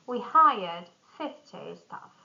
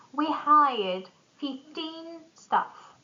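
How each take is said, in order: First: "fifty" stressed on FIF. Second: Put-on slow, "fifteen" stressed on TEEN. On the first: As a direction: punch the start of "fifty". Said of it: "tens are stressed at the beginning". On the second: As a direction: hit the end of "fifteen". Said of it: "tin numbers stress at the end". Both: Shown as a demonstration.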